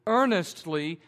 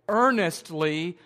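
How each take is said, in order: Both takes have the same delivery.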